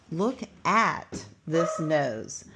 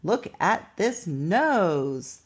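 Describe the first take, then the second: First: Slow reading. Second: Slow, exclamatory read of "Look at this nose.". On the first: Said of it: "The next word is at". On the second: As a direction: read it slowly, with a lift for the exclamation point. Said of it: "So we read it like this". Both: Shown as a demonstration.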